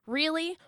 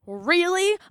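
First: REALLY softer, rising question; soft disbelief. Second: REALLY higher and fuller, rising sharply; escalated disbelief. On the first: Daughter doubting mom's reaction, quietly incredulous Really. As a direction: ask "Really" under your breath, lifting at the end. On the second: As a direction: push "Really" up into open outrage. Second, escalated take. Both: Acted.

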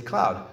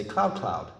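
First: Said in the usual way. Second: "cloud, cloud" doubled, stepping down in pitch; doubled for plural. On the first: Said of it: "the example she uses". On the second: Shown as a demonstration. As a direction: say "cloud" twice, dropping on the second. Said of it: "You just say it twice".

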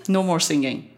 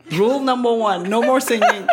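First: Consigne ferme, sans hausser le ton; ordre posé. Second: Plus haut et plus fort, en ordre comique; règle martelée. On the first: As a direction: poser calmement une interdiction. Ordre donné à Marco. (ordre ferme et posé) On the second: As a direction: marteler l'interdiction avec une exaspération jouée. Répète l'interdiction à Marco. (règle martelée, voix haute et forte) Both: Retold or imitated.

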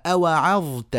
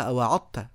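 First: أوعظت with a clear ظ; correct ẓāʾ. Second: أوعظت said with ض instead of ظ; wrong ḍād. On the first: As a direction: pronounce أوعظت with the ظ sound. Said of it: "في ناس بيقلبوها ضاد". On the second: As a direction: mispronounce أوعظت with ض as a bad example. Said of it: "كده، ما، لا يصلح ده". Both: Shown as a demonstration.

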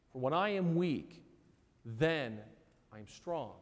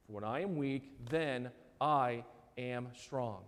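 First: Said in the usual way. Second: "For when I am weak, then I am strong" said slowly and softly, with weight on I; slow, solemn stress. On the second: Shown as a demonstration. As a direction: savour each word slowly and quietly.

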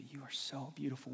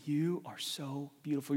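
First: Softer tender voicing of God; tender God quote. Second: Said in the usual way. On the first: Preacher voicing God softly to the listener. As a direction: say it gently, like a loving father. God's gonna look at you and say.

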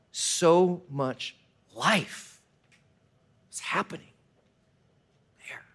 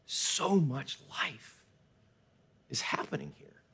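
First: Hushed awe. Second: Very slow, then softer into a whisper; whispered awe. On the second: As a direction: breathe it out in wonder. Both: Retold or imitated. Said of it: "like we said in that forest".

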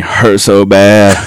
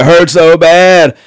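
First: Said in the usual way. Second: Higher, slow mock yell of pain; imitated yell. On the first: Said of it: "he just keeps repeating". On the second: Injured friend yelling about his leg, mock yell. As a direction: yell it out, drawn slow and high. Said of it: "he's starting to yell it".

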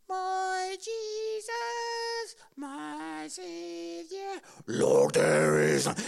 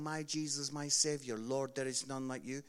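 First: Voice breaking. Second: Said in the usual way. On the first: Retold or imitated. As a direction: sing like a boy whose voice is breaking mid-song. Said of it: "His voice broke during the song". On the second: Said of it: "this is how it went".

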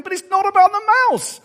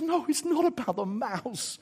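First: Put-on high, loud childlike outcry; protesting children. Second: Softer, slow and deliberate; God's gentle correction. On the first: Children reading the story and protesting, loud and high. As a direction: wail it out like an exasperated kid. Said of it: "The children reading the story going". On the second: Retold or imitated. God answering self-doubt, soft slow reassurance. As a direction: reassure them without raising the voice. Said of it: "God says".

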